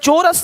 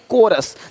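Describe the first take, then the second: First: The word begins with a ch sound. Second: The word begins with a k sound. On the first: The speaker calls it wrong. "चोरस नहीं" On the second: The speaker calls it right.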